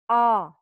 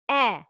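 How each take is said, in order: First: The vowel is deep and full, like ah. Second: The vowel is thin and light, like eh. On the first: The speaker calls it wrong. "It's not ah" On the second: The speaker calls it right. "it's eh"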